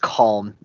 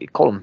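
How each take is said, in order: First: The name is said in a plain accent. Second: The name is said in an Irish accent. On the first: "I think it's just Calm" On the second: "if you said it with an Irish accent, it would sound more like Column"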